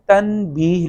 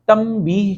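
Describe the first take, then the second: First: تنبیہ said as tan-beeh with a clear n; as written. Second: تنبیہ said as tam-beeh; n turned to m. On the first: Teacher shows the spelling, clear n in تنبیہ. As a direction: keep a distinct n before the b in تنبیہ. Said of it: "تنبیہ لکھنے میں آتا". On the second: Teacher gives the spoken form, m sound in تنبیہ. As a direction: put an m before the b in تنبیہ. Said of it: "کا لفظ بھی". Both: Shown as a demonstration.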